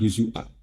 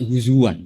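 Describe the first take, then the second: First: A glottal stop sits inside the word. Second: A w sound joins the syllables inside the word. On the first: This is the standard Arabic form. "Yang ada itu mahmus" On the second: This is the Quraysh dialect form. "pakai wawu"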